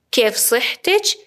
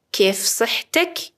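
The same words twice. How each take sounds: First: صحتچ with final -ech; slow, rising صحتچ ending on ch; feminine ending. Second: صحتک with final -ek; slow, rising صحتک ending on k; masculine ending. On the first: Teacher asks a woman's health, صحتچ with final ch. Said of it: "اگر خانم باشه". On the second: Teacher asks a man's health, صحتک with final k. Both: Shown as a demonstration.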